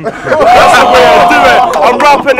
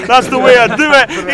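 First: Laughing boast. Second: Said in the usual way. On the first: Real, not acted. Rapper laughing, crowd hyped.

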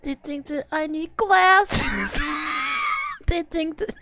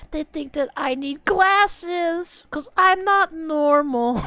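First: High, slow whiny mock; mocking whine. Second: High, slow whiny mock of the song; mocking whine. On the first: Streamer repeats the lyric mockingly in a high whine. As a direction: drag it out much higher. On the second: Streamer mocks the song's lyric in a high whine. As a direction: whine it much higher, drawn out.

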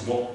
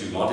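First: "Dumont" softly, with silent final t; French pronunciation. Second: "Dumont" with a hard, sounded final t; anglicised pronunciation. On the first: Frenchman correcting his name "Dumont", soft French pronunciation. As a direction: say "Dumont" with a nasal French ending. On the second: Frenchman rejecting "Dumont" said the English way, final t sounded. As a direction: say "Dumont" as English DOO-mont. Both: Shown as a demonstration. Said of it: "hard for a French person".

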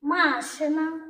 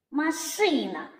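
First: "Машина" slowly as МА-шина; stress on first syllable. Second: "машина" as ма-ШИ-на; stress on second syllable. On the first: Teacher asks children to compare two words, stressed "МАшина". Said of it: "звуки в цих словах?". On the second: Teacher asks children to compare two words, stressed "маШИна". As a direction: put the weight on the middle И of "машина". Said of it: "а слова відрізняються". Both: Shown as a demonstration.

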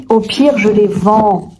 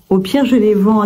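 First: Slow, put-on "au pire, je les vends"; slow drawl. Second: Said in the usual way. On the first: Real, not acted.

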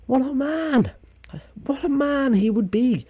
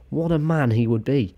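First: Very high put-on voice, gushing; hammed-up admiration. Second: Somewhat raised pitch, admiring; admiring exclamation. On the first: Vlogger imagining [name] alive, high mock gushing. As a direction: push it way up into a squeal of praise. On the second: Acted. Vlogger imagining [name] alive, admiring. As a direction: lift the voice a little in admiration.

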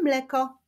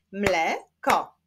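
First: Said in the usual way. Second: "Mleko" split as mle, ko with a pause; two separate beats on "Mleko"; syllable by syllable. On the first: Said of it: "wyklaszczmy sylaby w wyrazie". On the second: Shown as a demonstration. Teacher clapping syllables for pupils, "Mleko" split in two. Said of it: "wyklaszczmy sylaby w wyrazie mleko".

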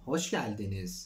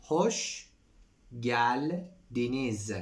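First: Said in the usual way. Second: Hoş geldiniz drawn out very slowly, each syllable clear; slow teacher model of Hoş geldiniz. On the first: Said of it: "Hoş geldiniz (repeated slowly)". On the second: Shown as a demonstration. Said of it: "Hoş geldiniz (repeated again)".

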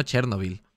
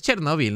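First: "Chernóbil" without the stress on the O; the rejected "Chernóbil", accent off the NO, said lower; misplaced accent. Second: "Chernóbil" with the accent on the O; the corrected "Chernóbil", stressed on NO. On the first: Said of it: "Es Chernóbil, no Chernóbil". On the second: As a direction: hit the O in "Chernóbil": cher-NO-bil. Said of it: "tiene acento en la O". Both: Shown as a demonstration.

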